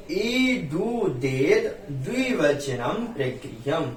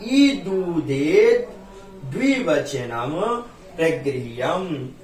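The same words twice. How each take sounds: First: ईदुदेत द्विवचनम प्रगृह्यम joined as one slow phrase; sutra in one phrase. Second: ईदुदेत, द्विवचनम, प्रगृह्यम each drawn out with pauses; slow sutra recitation. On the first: Teacher to students, joining the sutra into one phrase. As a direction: say the whole sutra together, still slow. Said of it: "sutra repeated in one breath". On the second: Teacher to students, reciting the sutra slowly and deliberately. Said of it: "sutra recited slowly, word by word". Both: Shown as a demonstration.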